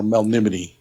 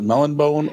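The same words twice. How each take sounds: First: "Melnimity", four syllables ending in "-nimity"; MELNIMITY pronunciation. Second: "Melonbone", ending in a plain English "bone"; MELONBONE pronunciation. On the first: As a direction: say "Melnimity" to rhyme with sublimity. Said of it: "people pronounce it Melonbone or Melnimity". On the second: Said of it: "people pronounce it Melonbone". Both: Shown as a demonstration.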